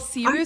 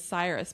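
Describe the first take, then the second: First: The name is said the Persian way. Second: The name is said the American way. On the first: "the Persian pronunciation" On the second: "the American pronunciation is Cyrus"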